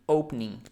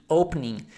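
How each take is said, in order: The two takes are said the same way.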